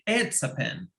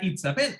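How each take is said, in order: First: The vowel in "it's" is an open 'eh' sound. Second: The vowel in "it's" is a tense 'ee' sound. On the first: The speaker calls it right. "se pronuncia e" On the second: The speaker calls it wrong. "no se pronuncia it's a pen"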